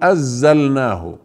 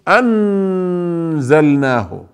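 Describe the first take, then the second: First: The n is dropped and merged into the next sound. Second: The n is fully pronounced with tongue contact. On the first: "ولا ندغم فنقول أزلناه" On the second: "يعني لا يكون اللسان ملتصق في أعلى الحنك، لا، يعني لا نقول أنزلناه"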